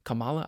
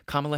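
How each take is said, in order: First: "Kamala" with stress on the middle syllable; alternative pronunciation. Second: "Kamala" with stress on the first syllable; trying a pronunciation. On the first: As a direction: say kuh-MAH-luh for "Kamala", questioning. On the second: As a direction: say KAH-muh-luh for "Kamala". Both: Shown as a demonstration. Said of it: "however you say her name".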